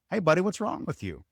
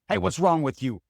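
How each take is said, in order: First: The tone sounds warm and genuinely caring. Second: The tone sounds annoyed and confrontational.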